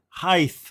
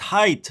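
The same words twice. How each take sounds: First: The word ends with a th sound. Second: The word ends with a plain t sound. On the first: The speaker calls it wrong. "not height. No T H" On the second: The speaker calls it right. "It's height"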